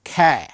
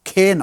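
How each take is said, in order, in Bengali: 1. স্বরধ্বনিটি খোলা, cat-এর 'a'-এর মতো। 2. স্বরধ্বনিটি বদ্ধ, bet-এর 'e'-এর মতো। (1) "তাই এর উচ্চারণটা খ্যা" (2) "খে নয়"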